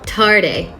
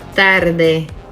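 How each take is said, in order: First: The T and D are made behind the teeth. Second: The T and D are made against the teeth. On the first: The speaker calls it wrong. "If I were to use the English pronunciation of T and D" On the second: The speaker calls it right. "See how the tongue comes through the teeth both times?"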